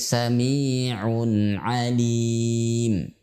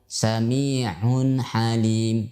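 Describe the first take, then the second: First: The ain is voiced without pushing out breath. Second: The ain is said with breath pushed out. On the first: The speaker calls it right. "tapi Sami'un alim" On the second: The speaker calls it wrong.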